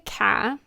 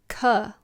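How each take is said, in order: First: The vowel is not the one in cuddle. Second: The vowel is the one in cuddle. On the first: The speaker calls it wrong. "some people say ka. No" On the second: The speaker calls it right. "like cuddle, cousin"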